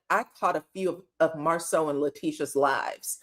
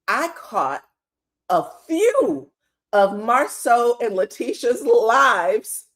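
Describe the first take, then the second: First: It is said seriously, with a straight face. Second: It is said through laughter, not straight.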